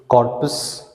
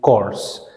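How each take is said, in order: First: The P sound is pronounced in the word. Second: The P sound is left out of the word. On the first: The speaker calls it wrong. "We do not say corpus" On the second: The speaker calls it right. "the P is silent. ... we say it corse"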